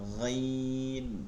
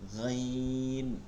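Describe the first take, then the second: Both takes have the same delivery.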